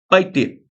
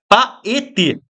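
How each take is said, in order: First: The first two vowels merge into one syllable. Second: The first two vowels form two separate syllables. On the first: This is the poetic count used for meter. "como se fosse pai. Então vira uma coisa só" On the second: This is the dictionary syllable division. "É assim que se separa, silabicamente"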